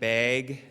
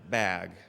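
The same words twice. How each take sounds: First: It is said in a Wisconsin accent. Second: It is said in a standard accent.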